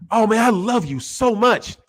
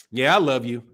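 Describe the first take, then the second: First: Gushing love. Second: Dismissive. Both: Shown as a demonstration. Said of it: "See the tone?".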